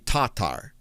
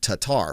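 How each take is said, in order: First: The stress is on the first syllable. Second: The stress is on the second syllable. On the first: "it's closer to Tatar" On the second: "a lot of us were saying Tatar"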